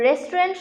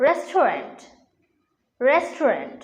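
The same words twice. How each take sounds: First: রেস্টুরেন্ট said the common way, 'res-tu-rent' with 'ren' run together; common mispronunciation. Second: রেস্টুরেন্ট carefully as 'res-to-rent'; corrected pronunciation. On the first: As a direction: say রেস্টুরেন্ট as Bengali speakers usually do, 'restorenT'. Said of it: "উচ্চারণ আসলে ভুল". (রেস্টুরেন্ট-এর প্রচলিত ভুল উচ্চারণ, 'রেস্টুরেন্ট') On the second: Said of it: "এর সঠিক উচ্চারণ হচ্ছে". (রেস্টুরেন্ট-এর শুদ্ধ উচ্চারণ, 'রেস্টোরেন্ট') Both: Shown as a demonstration.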